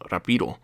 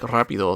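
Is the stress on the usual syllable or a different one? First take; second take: different; usual. First: The stress falls on a different, misplaced syllable. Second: The stress falls on the usual Spanish syllable. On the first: The speaker calls it wrong. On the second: The speaker calls it right.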